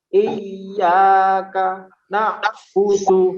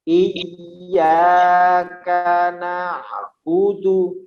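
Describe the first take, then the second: First: There is a pause inside the phrase. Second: The phrase flows on without any pause. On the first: The speaker calls it wrong. "di situ dikasih jeda" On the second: The speaker calls it right. "Jadi langsung ya, tidak dikasih jeda"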